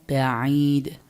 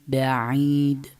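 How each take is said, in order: Both takes have the same delivery.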